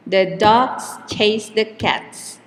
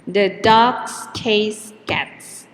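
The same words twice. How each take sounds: First: Dogs, chase and cats hit on an even beat while both the words are tucked in small; same timing even though it is longer; weak the, weak the, strong dogs chase cats; keep the beat. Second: The slipped in light and quick before a slow, strong dogs, chase, cats; unstressed The, dogs chase cats stressed on the beat; keep the beat. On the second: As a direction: squeeze the little word in and keep the beat. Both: Shown as a demonstration. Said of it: "the time between stressed words is always the same".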